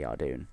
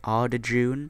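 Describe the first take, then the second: First: The name has no 'j' sound in the middle. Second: The name has a 'j' sound in the middle. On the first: The speaker calls it right. "it's probably Ardoon" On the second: The speaker calls it wrong. "I remember when I called it Ardajoon. No idea why"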